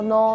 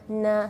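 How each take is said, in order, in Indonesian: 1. Vokal setelah n terdengar seperti o. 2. Vokal setelah n terdengar seperti a. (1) "jadi tidak boleh no" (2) "tapi na"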